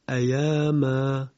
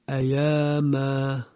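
No difference in how they are said.

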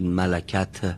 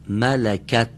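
First: The final t is followed by a vowel. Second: The final t is released with no vowel. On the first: The speaker calls it wrong. "نگید ملکت، به این شکل غلط میشه" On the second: The speaker calls it right. "رها میشه ته، اما حرکت نگیره"

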